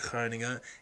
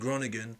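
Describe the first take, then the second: First: The name is said with local Dutch sounds. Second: The name is said with English sounds. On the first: This is how locals say the name. The speaker calls it right. "why I'm pronouncing it like Groningen" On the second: This is how outsiders say the name. The speaker calls it wrong. "I'd probably get slapped for saying Groningen"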